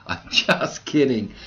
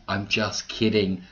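First: Laughing it off, a bit louder. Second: Said in the usual way. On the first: Real, not acted. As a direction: laugh through the take-back. Teasing joke, then takes it back.

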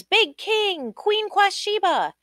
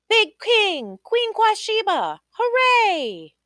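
First: High ringing call of names; crowd calling out. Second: High, louder joyful cheer; cheering crowd. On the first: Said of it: "Everybody called out their names". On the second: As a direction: shout it like the whole kingdom cheers. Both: Acted.

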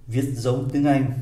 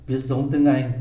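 No difference in how they are said.

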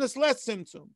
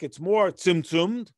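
First: "less" pitched higher and falling; stress on less. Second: "more" slowed and lifted, rising; slow contrastive "more" rising at the end; stress on more. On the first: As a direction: hit "less" high, then drop. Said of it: "and in the person". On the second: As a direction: lean on "more" in "more tzimtzumed", slowly. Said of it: "But in the rock". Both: Shown as a demonstration.

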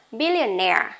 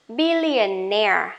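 First: Billionaire said quickly, stress on -naire; normal speed word. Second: Billionaire stretched slowly, stress on -naire; slow model word. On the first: (đọc Billionaire nhanh, tự nhiên) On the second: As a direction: draw out billionaire for the class. (đọc chậm billionaire) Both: Shown as a demonstration. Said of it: "Lại nhá".

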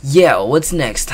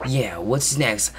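First: Louder, slow, emphatic take; louder redo. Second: Said in the usual way. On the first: Shown as a demonstration. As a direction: say it again, louder and slower. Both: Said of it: "clears throat and redoes".

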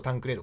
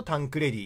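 First: タンクレード ending in a long "ree-do"; タンクレード, English-style name in Japanese sounds; English reading. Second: タンクレディ ending in "re-dee"; タンクレディ, Italian-style name in Japanese sounds; Italian reading. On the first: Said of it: "英語読みだと". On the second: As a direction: say タンクレディ with a short "re" and final "dee". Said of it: "イタリア語読みだと". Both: Shown as a demonstration.

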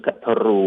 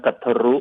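First: กัทรู with a long final u; long final vowel. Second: กัทรุ with a short final u; short final vowel. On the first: Lecturer offers the other name reading, กัทรู ending long. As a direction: hold the last vowel of กัทรู. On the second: Lecturer offers two name readings, กัทรุ ending short. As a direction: stop กัทรุ short on the last syllable. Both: Shown as a demonstration. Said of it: "หรือกัทรู".

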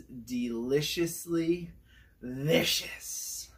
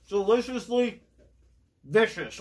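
First: Drawn-out catchphrase. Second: Excited catchphrase. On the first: Host stamping the burger with his show catchphrase, slow and savoring. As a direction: draw out "deliciously vicious" like a grand verdict. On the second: Catchphrase after tasting, excited. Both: Pretend.

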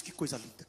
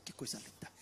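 First: Much lower and softer, voiced murmur; awed murmur. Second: A whispered, much lower and softer que coisa linda; awed whisper. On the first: Barnabé admires the church, murmuring in awe. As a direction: breathe out the wonder, still voiced: Que coisa linda. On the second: Acted. Barnabé admires the church, whispering in awe. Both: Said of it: "Barnabé chegou e disse".

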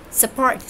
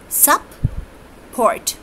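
First: Said in the usual way. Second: "sup-port" in two higher, isolated beats with a long gap; teacher sounding out "sup-port", sup... port; split into syllables. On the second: Shown as a demonstration. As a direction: break "sup-port" cleanly after sup. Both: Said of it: "support has two syllables".

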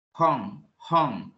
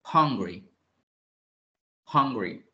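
First: "hung" with a strong breathy H, like Spanish J; breathy h start. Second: "Hungry" with a strong breathy H at the start. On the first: Teacher drills the H of "hung" for the class, breathy. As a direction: push air on the H of "hung". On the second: Teacher models "Hungry" for the class with a strong H. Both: Shown as a demonstration. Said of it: "con una J al inicio".

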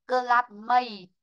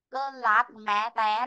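First: "cơ lát mây" stopping after "mây"; silent final E. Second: "cơ lát mẹ té" with an extra syllable on the end; wrongly sounded final E. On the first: Teacher showing the correct reading, "cơ lát mây" ending without a sounded E. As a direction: end on "mây" with no extra vowel after it. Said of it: "chúng ta chỉ dừng lại là". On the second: Teacher showing the mistake to avoid, "cơ lát mẹ té" in three-plus syllables. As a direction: add a spoken "te" after "mẹ". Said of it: "tao có đọc đâu". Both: Shown as a demonstration.

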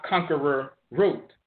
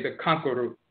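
First: "conqueror" slowly in full, KONK-er-er, then separate root; over-correct pronunciation. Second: "conqueror root" run together as KONK-uh-root; bluesmen's pronunciation. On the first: Lecturer showing the mistaken form, "conqueror" fully sounded as KONK-er-er. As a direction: spell out every syllable of "conqueror root". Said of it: "not conqueror root". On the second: Lecturer quoting how bluesmen say it, "conqueror root" as konk-uh-root. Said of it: "everybody else would say". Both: Shown as a demonstration.

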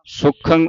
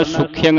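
First: ਸੁਖੰ as 'SU-khang', no y glide; correct nasal ending. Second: ਸੁਖਿਅੰਗ as 'sukh-i-yang'; wrong y glide. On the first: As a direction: go straight from kh to 'ang' in ਸੁਖੰ. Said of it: "ਸੁਖੰ ਉਚਾਰਨ ਕਰਨਾ". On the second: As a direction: slip an 'i-y' before the nasal in ਸੁਖਿਅੰਗ. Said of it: "ਨਹੀਂ ਪੜ੍ਹਨਾ". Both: Shown as a demonstration.

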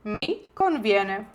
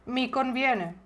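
First: Slow, careful, stress on conviene; slow model phrase. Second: Said in the usual way. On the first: Shown as a demonstration. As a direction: spell it out slowly to repeat. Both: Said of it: "зі мною вимовляйте вголос".

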